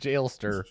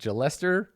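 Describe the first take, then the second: First: The name has two syllables, beginning like jail. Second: The name has three syllables, like molester. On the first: The speaker calls it wrong. "rhymes with hailstorm" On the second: The speaker calls it right.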